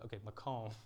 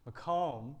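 First: Makom as mah-KOHM, stress on the second syllable; Makom said clearly. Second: Makom, higher and louder, mah-KOHM; Makom called out. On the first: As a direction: model the word Makom for the crowd. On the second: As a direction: call Makom out for the room to echo. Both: Shown as a demonstration. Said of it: "Can everyone say Makom for me".

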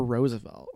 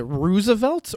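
First: "Roosevelt" said the other way; "Roosevelt" as the contrasting alternative; alternative pronunciation. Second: "Roosevelt" said one way, as a question; "Roosevelt" held up for comparison; first pronunciation. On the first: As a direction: offer "Roosevelt" as the second option. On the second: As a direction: offer "Roosevelt" as the first option. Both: Shown as a demonstration. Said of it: "Is it Roosevelt or Roosevelt".

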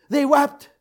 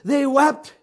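No difference in how they are said.

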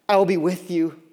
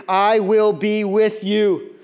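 First: Said in the usual way. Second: "I will be with you" drawn out slowly and loud; loud, stretched-out "I will be with you"; emphatic promise. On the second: Real, not acted. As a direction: proclaim "I will be with you", lingering on each word. Repeating the most encouraging words.

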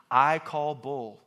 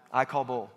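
First: I call bull, slow and punched; stress on I. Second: Said in the usual way. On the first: Shown as a demonstration. Preacher calling out fake excuses, slow and firm. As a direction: drag it out, hit I.

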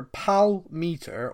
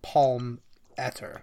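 First: First "Palmeter" said as PAL-meter; "Palmeter" with PAL then meter; first pronunciation option. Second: Second "Palmeter" said as PALM-etter; "Palmeter" with palm then etter; second pronunciation option. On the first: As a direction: say "Palmeter" slowly as PAL-meet-er. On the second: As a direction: say "Palmeter" slowly as PALM-ett-er. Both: Shown as a demonstration. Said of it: "trying to work out how to say it".

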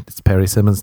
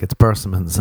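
First: "Perry Simmons" split like first name and surname; persimmons as a name. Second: Said in the usual way. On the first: Acted. Correcting a date, "Perry Simmons" said as a name. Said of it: "And I'm like". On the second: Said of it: "They'll be like".

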